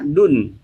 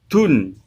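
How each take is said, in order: First: The d is said clearly, without a breath. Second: The d is said with a puff of breath. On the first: The speaker calls it right. "Ini yang benar membacanya dun" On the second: The speaker calls it wrong. "ada yang membaca dengan hamas atau hembusan angin"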